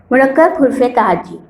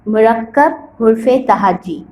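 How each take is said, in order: First: Said in the usual way. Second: Slow, drawn-out naming of the topic; slow announcement. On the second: Shown as a demonstration. Teacher to schoolchildren, introducing the new topic slowly. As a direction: stretch each word out for the class. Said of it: "اب آئیے اس کے بعد".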